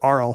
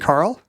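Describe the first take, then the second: First: The name begins with a vowel sound. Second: The name begins with a K sound. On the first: "Or is it Arl?" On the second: "Do you say the K in Carl?"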